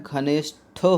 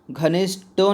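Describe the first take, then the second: First: "घनिष्ठो" with aspirated ṭh, ghanish-ṭho; "घनिष्ठो" drawn out, ending in aspirated ṭho; correct pronunciation. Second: "घनिष्ठो" with unaspirated ṭ at the end, ghanishṭo; "घनिष्ठो" mispronounced as ghanishṭo; wrong pronunciation. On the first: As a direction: say "घनिष्ठो" slowly, breaking before a breathy ṭho. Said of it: "होता है". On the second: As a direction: say "घनिष्ठो" wrongly, ending in a hard ṭo without breath. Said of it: "नहीं होता है". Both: Shown as a demonstration.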